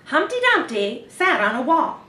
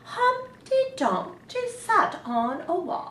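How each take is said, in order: First: It is said like a news reporter. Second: It is said in a grand royal voice.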